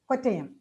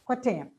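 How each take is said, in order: The two takes are said the same way.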